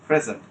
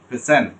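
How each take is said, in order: First: The stress is on the first syllable. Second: The stress is on the second syllable. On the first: It is a noun meaning a gift. "স্ট্রেসটা শুরুতে দেন ওটা noun হিসেবে" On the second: It is a verb meaning to present something. "আরেকটা হচ্ছে present, আপনি কোনো কিছু present করছেন"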